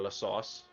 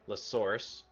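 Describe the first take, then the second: First: It is said with no r sound. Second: It is said with a clear r sound. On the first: "instead of La Sauce" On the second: "with my Canadian accent"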